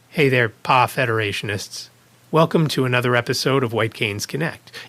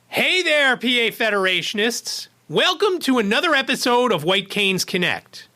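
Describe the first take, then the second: First: It is said in a flat lifeless voice. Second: It is said in a lively natural voice.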